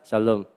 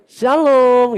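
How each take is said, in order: First: The word is said at a rather low pitch. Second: The word is said at a very high pitch. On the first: The fried banana must be paid for. "kalau shalomnya agak rendah" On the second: The speaker is asking for free fried banana. "Shalom saya tinggi banget nadanya"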